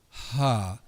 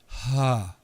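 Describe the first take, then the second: First: The vowel starts softly with a breathy h. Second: The same.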